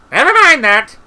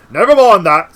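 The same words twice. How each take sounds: First: Loud, very high brush-off; shouted interruption. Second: Loud brush-off, moderately raised pitch; firm interruption. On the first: Wizard cutting Treatle's objection off, high shout. Interrupting, first take then redone. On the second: Cutangle cutting Treatle's objection off, loud and firm. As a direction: cut in loudly, keeping the voice less shrill. Retake as Cutangle, less high. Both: A narrator's reading.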